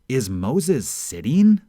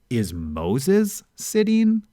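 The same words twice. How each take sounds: First: The stress falls on the word sitting. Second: The stress falls on the word Moses. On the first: The question asks what is being done. "you know that Moses is doing something, but you're not exactly sure what" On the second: The question asks who is sitting. "you know that someone is sitting, but you're not sure who"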